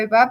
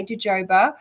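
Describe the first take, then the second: First: "jojoba" with H for both Js; jojoba with H sounds. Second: "jojoba" with both Js as in joke; jojoba with J sounds. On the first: Co-host backing the host, "jojoba" said ho-HO-ba. Co-host weighs the two pronunciations. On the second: Co-host allowing the variant, "jojoba" said juh-JOE-ba. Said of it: "but if you say jojoba". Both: Shown as a demonstration.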